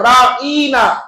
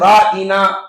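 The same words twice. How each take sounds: First: A vowel in the word is drawn out long. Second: The word is said without stretching any vowel. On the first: O our shepherd. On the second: Please take care of us.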